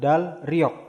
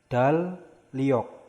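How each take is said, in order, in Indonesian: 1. Konsonan di tengah dibaca L lalu R. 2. Kedua konsonan di tengah dibaca L. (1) "bukan dalryok" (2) "dibacanya dalyok"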